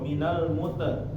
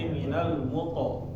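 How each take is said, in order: First: The word ends with an 'e' vowel. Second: The word ends with an 'o' vowel. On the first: The speaker calls it wrong. "Jangan sampai dia ke e ya" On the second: The speaker calls it right. "Tetapi minal muto"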